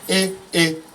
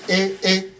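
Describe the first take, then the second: First: A high tone followed by a mid tone. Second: Both syllables are on a high tone. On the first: "high middle" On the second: "Nke bụ nke a na-akpọ hai hai"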